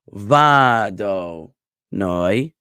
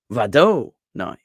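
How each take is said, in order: First: The middle syllable is unstressed, the outer ones stressed. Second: The middle syllable is stressed, not the outer ones. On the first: The speaker calls it right. "with va emphasized and noi emphasized and do de-emphasized" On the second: The speaker calls it wrong. "and not vado noi"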